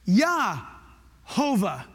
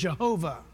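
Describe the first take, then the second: First: The name begins with a Y sound. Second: The name begins with a J sound. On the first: The speaker calls it right. "There is no J sound. It's Yah" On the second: The speaker calls it wrong. "Americans say the word Jehovah"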